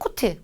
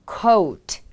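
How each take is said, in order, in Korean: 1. 모음은 짧고 그냥 o예요. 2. 모음은 o에서 u로 미끄러지듯 넘어가요. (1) "그냥 코트, 코트가 아닌" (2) "coat 이렇게 발음을 해주시면 됩니다"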